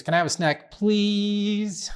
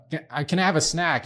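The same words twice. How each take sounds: First: Put-on long high wheedling "please?" like a little girl; sweet pleading please. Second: Said in the usual way. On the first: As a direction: stretch "please?" up high and sweet to get the snack. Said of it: "she adds the extra oomph on this". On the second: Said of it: "Instead of just saying please".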